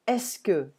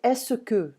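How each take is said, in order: First: Est-ce que as two syllables, es like in desk, then que; correct est-ce que. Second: Est-ce que with an extra vowel, es-se-que; wrong est-ce que. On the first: Teacher shows the right Est-ce que. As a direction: run Est-ce que together as ess-keh. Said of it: "think about the word desk". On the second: Teacher shows learners the wrong est-ce que. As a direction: split est-ce que into three syllables. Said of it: "you're not gonna say". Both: Shown as a demonstration.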